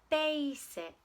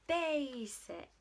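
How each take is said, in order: Both takes have the same delivery.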